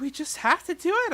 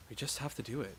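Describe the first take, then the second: First: Put-on higher, louder resigned girl; higher character voice. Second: Plain. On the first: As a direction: shrug it off in a higher voice. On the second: Acted. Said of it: "kept repeating that sentiment".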